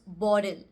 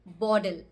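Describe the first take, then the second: The two takes are said the same way.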